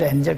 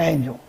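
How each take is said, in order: First: The first syllable is a short 'en' sound. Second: The first syllable is a gliding 'ain' sound. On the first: The speaker calls it wrong. "한국 사람들은 발음을 엔젤" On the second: The speaker calls it right. "엔젤이 아니고 에인졸입니다"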